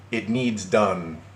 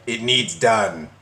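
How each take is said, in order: First: Very slow, drawn-out reading; mocking quote. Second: Slow, punched mock demand; mocking quote. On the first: Reading out the ex's odd wording, slowly mocking. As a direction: stretch out the quoted demand. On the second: Ridiculing the ex's odd wording, heavy slow mockery. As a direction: repeat it heavily, word by word. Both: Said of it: "Who talks like that anymore?".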